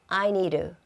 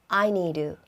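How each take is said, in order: The two takes are said the same way.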